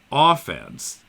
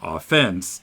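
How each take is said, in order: First: The stress is on the first syllable. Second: The stress is on the second syllable. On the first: It refers to the attacking side in sports. "in sports, it's the same words, but it's developed that we pronounce them as offense" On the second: It has the general, non-sports sense. "rather than offense"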